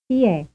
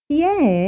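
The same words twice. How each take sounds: First: It is asked in a casual way. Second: It is asked in an interested way.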